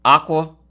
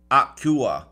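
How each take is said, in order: First: Aqua said ah-kwa, no y glide. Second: Aqua said with a y glide, ah-kyoo-ah. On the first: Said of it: "Aqua or aqua?". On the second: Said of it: "Are you saying aqua or aqua?". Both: Shown as a demonstration.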